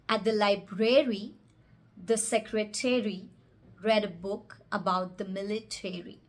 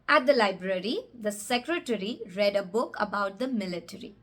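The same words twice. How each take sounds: First: The -ary endings sound like the word airy. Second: The -ary endings are short, reduced syllables.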